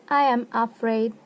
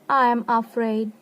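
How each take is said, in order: Both takes have the same delivery.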